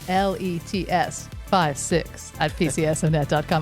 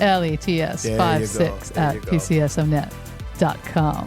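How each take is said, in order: First: It is said in a normal voice. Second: It is said in a lowered, deep voice.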